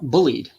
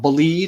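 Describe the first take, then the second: First: The word sounds like the English 'bullied'. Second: The word does not sound like 'bullied'. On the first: The speaker calls it wrong. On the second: The speaker calls it right.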